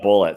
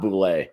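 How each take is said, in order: First: The name is said like the word bullet. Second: The name is said with a French-style ending. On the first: The speaker calls it right. "It's straight up bullet" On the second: The speaker calls it wrong. "it is not Boulay"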